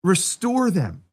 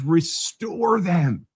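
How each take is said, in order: First: Slow restate. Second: Slow emphatic. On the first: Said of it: "That's hope". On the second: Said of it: "No, no, it says". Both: Shown as a demonstration.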